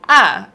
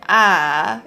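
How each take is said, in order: First: It is said in fourth tone, going down. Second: It is said in third tone, going down. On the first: "fourth tone, it goes down" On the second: "third tone, it goes down"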